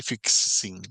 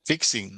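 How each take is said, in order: First: FIXING slowly split as fiks-sing; wrongly doubled sound. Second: Said in the usual way. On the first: Shown as a demonstration. Teacher showing students what not to say, middle sound doubled. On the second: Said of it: "se pegan en una sola sílaba".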